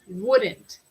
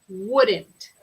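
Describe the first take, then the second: No difference in how they are said.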